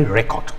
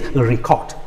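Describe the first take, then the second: First: The stress is on the first syllable. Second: The stress is on the second syllable. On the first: It is a noun. "a noun" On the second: It asks someone to record. "when it shifts to the second syllable"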